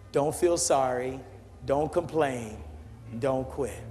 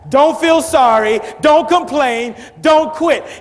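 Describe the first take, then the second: First: It is said at a normal volume. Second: It is yelled at full volume.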